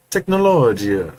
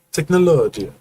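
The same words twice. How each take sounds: First: Put-on slow Italian accent; drawn-out Italian Technologia. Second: Higher, louder Italian Technologia; Italian accent. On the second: Retold or imitated. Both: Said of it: "In an Italian accent".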